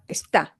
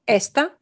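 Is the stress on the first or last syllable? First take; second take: last; first. First: The stress is on the last syllable. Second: The stress is on the first syllable.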